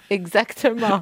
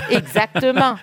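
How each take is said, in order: First: Said in the usual way. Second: Laughs through the word; real laugh of agreement, high; laughing yes, exactly. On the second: Real, not acted.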